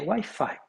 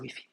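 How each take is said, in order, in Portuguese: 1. É pronunciado do jeito inglês. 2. É pronunciado do jeito francês. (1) "seguindo as normas da língua inglesa" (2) "na França, Wi-Fi"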